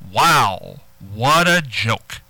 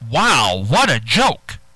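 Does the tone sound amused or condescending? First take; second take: condescending; amused. First: It sounds condescending and belittling. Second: It sounds upbeat and genuinely amused. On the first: The joker is being looked down on. "now that's condescending" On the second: The joke is found genuinely funny. "You're up. You're saying, hey, that's very funny"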